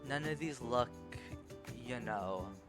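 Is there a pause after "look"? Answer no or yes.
yes. There is a pause after look. The speaker calls it right. "I would just deliver it more as"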